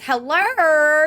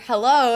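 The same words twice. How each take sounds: First: It is said in a mock Australian accent. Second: It is said in a plain, ordinary accent. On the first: "She made fun of the Australian accent all the time" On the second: "it was never hello"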